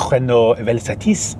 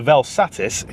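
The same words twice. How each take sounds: First: Slow, hammed-up French accent on Renault Velsatis. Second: Said in the usual way. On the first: Shown as a demonstration. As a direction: say the car name like a Frenchman would, slowly. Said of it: "I'll do the accent". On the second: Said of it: "what it sounds like in Northern".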